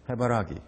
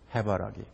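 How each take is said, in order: First: The stress is on the third syllable. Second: The stress is on the first syllable. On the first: "세 번째 라에 있습니다" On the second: "이 1번에는 맨 앞에 그 말하자면은 그 악센트가 있습니다. 강하게 발음하는 거죠"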